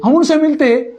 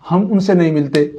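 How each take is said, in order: First: हम उनसे मिलते pitched high, falling at the end; high, emphatic हम उनसे मिलते; high-pitched counterpoint. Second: हम उनसे नहीं मिलते said low and falling; low, matter-of-fact हम उनसे नहीं मिलते; low-pitched denial. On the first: Counters the negative with positive. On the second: Contrasts not matching with matching. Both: Real, not acted.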